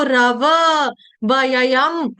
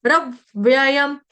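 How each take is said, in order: First: रव वयम with full drawn-out vowels, raa-vaa va-yayam; wrong pronunciation. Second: Slow रव्ययम as rav-vyayam with half व; correct pronunciation. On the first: Teacher showing what not to read, over-voweled mispronunciation. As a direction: open up every व into a full syllable in रव वयम. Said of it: "ऐसे नहीं पढ़ना है". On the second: Teacher showing the right way, slow joined-consonant pronunciation. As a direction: stop briefly on the v of रव्ययम. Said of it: "ये गलत उच्चारण हो जाएगा". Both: Shown as a demonstration.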